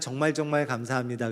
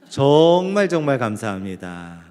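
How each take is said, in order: First: The first syllable is said short and plain. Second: The first syllable is long and drawn out.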